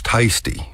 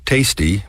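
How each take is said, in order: First: Tasty with its first vowel stretched, "tie-sty"; Texas diphthong. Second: Said in the usual way. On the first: Shown as a demonstration. Showing listeners Texas dialect, stretched first syllable in tasty. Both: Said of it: "We do it with the first syllable".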